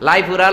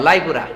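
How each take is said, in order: Both takes have the same delivery.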